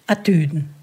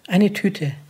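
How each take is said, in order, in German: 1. Es wird in breitem Fränkisch gesagt. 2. Es wird in Standarddeutsch gesagt.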